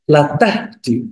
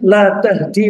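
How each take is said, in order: First: The vowel in "la" is short. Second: The vowel in "la" is long. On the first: You indeed guide. "lanya pendek" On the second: You do not guide. "ini lanya panjang"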